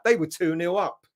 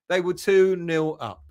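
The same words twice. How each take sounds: First: Said in the usual way. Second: Slower repeat, "two" leaned on with a falling tune; stress on two. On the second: Shown as a demonstration. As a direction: spell out "They were two nil up" slowly, pressing "two".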